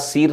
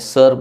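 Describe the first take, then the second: First: The vowel sounds like a long 'ee'. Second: The vowel sounds like a neutral 'uh'. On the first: The speaker calls it wrong. "सीर म्हटलं जात नाही" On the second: The speaker calls it right. "सर म्हटलं जातं"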